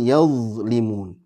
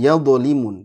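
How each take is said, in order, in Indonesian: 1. Bunyi dh-nya dipanjangkan dan mengalir. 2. Bunyi dh-nya dipotong pendek, tidak dipanjangkan. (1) "harus ngalir ya"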